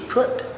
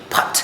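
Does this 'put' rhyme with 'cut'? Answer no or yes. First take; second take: no; yes. First: The vowel does not sound like cut's vowel. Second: The vowel sounds like the vowel in cut. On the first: The speaker calls it right. "which is not, which is P U T, put" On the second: The speaker calls it wrong. "we take for granted like uh, P U T also should be put"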